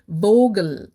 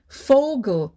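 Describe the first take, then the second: First: The word begins with a V sound. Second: The word begins with an F sound. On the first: The speaker calls it wrong. "we don't say Vogel with a V" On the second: The speaker calls it right. "we pronounce it as Vogel with an F"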